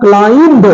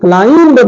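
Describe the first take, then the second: First: The word ends with an audible b sound. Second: The same.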